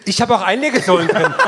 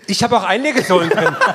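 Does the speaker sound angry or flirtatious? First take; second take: angry; angry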